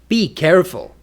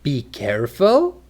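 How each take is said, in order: First: It is said like a firm command. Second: It is said like a question. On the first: The listener is told to be careful. "For a command" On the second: The speaker asks whether to be careful. "For a question"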